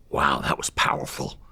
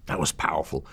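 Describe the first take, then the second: First: Slow breathy whisper, softer; the judge murmurs it slowly, impressed; hushed awe. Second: Said in the usual way. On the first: Retold or imitated. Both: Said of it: "He goes".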